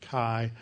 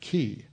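First: Chi is said the fraternity way. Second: Chi is said the Greek-course way. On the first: This is how fraternities and sororities say it. "If you came up through fraternities and sororities ... they pronounced it chi" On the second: This is how Greek courses say it. "but in Greek courses, we pronounce it chi"

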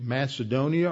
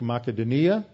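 First: The name is pronounced the English way. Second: The name is pronounced the Greek way.

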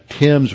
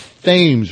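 First: The name is said the London way. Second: The name is said the local way. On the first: The speaker calls it right. "They were familiar with the Thames River in London" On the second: The speaker calls it wrong. "they've just completely corrupted the pronunciation. They call it the Thames River"

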